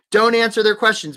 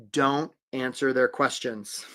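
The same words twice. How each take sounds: First: Loud, raised, brisk insistence; punchy and forceful; emphatic repeat. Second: Slow, low and deliberate; measured, quietly weighty delivery; dramatic reveal. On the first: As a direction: drive the advice home. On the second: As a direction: let each word land gravely. Advice revealed slowly, then repeated loudly. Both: Real, not acted.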